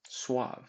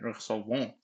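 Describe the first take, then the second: First: The final ENT ending is left silent. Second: The final ENT ending is pronounced aloud. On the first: The speaker calls it right. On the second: The speaker calls it wrong.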